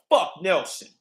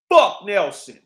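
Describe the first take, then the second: First: Said in the usual way. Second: Loud angry curse. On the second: Real, not acted.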